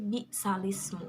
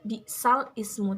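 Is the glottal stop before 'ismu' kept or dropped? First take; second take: dropped; kept. First: 'Sal' runs straight into 'ismu' without a stop. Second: A glottal stop separates 'sal' from 'ismu'. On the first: The speaker calls it right. "tetapi bi salismu" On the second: The speaker calls it wrong. "Tidak bi sal ismu"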